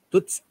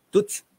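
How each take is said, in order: The two takes are said the same way.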